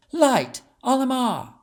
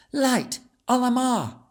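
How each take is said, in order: First: Much higher, louder incantation; spell command. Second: Put-on much higher child incantation; exclaimed spell. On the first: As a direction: call the spell out with power. Casting a light spell. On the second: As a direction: cry out the spell. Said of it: "she exclaimed". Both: A narrator's reading.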